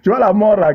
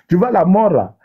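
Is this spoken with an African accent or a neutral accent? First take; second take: neutral; African. First: It is spoken in the speaker's ordinary accent. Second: It is spoken with a put-on African accent.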